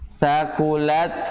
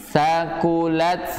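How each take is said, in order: Both takes have the same delivery.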